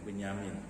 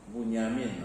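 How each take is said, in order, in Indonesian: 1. Huruf vokal pertama terdengar seperti 'e'. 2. Huruf vokal pertama terdengar seperti 'u'. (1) "orang kita lafaznya Benyamin"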